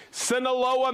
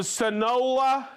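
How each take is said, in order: First: "Sinaloa" said sin-uh-LO-uh; corrected pronunciation. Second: "Sinaloa" misread as suh-NO-luh; stumbled pronunciation. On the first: Host retries Eric's hometown, correctly as sin-uh-LO-uh. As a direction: give "Sinaloa" all four syllables, sin-uh-LO-uh. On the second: Host reads Eric's hometown, mispronouncing it suh-NO-luh. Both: Real, not acted. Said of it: "Sinaloa, Mexico".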